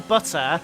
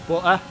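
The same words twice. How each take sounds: First: The T in the middle is clearly pronounced. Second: The T in the middle is dropped. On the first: This is the speaker's own way of saying it. "I say butter" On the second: This is how the people around the speaker say it. "the rest of the people I live with say butter"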